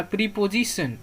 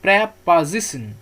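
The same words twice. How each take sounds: First: "प्रीपोजिशन" as "pree-po-ji-sun"; long EE and O in "प्रीपोजिशन"; wrong pronunciation. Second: "प्रीपोजिशन" as "prap-aa-zisun", slow and firm; correct pronunciation. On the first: Teacher shows how not to read it, wrong pronunciation. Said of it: "इसको ऐसे नहीं पढ़ना है". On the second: Teacher corrects the wrong reading, slow correct pronunciation. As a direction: split "प्रीपोजिशन" slowly, open A for both first vowels. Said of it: "ऐसा नहीं पढ़ना है". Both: Shown as a demonstration.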